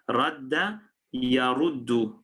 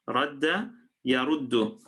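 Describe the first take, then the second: No difference in how they are said.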